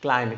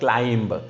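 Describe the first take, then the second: First: The final B sound is silent. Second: The final B sound is pronounced. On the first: The speaker calls it right. "It's a climb" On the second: The speaker calls it wrong. "It's not a climb"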